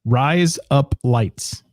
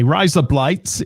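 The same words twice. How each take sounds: First: Each word drawn out very slowly; slow demo. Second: "Rise up lights" run together quickly, so it sounds like razor blades; fast accent demo. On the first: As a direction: lay it out slowly so they can copy it. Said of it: "Do it right now". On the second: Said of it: "like razor blades in an accent". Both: Shown as a demonstration.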